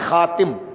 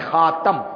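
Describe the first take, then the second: First: The vowel after t is i: khatim. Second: The vowel after t is a: khatam. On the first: "تا کے نیچے زیر ہوتا ہے تو پڑھتے خاتم" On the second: "تا کے اوپر زبر ہوتا ہے تو پڑھتے خاتم"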